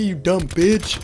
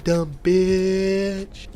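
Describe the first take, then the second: First: High pitched squeaky insult; tiny wizard insult. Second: Long exaggerated bitch. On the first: Acted. Imaginary wizard insults the narrator, high squeaky sneer. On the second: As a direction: drag out bitch and let it sink. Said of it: "like, the long exaggeration".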